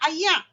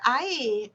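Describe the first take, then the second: First: It is said in Kedah dialect, ending in a throat sound. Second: It is said in the standard way, ending in r.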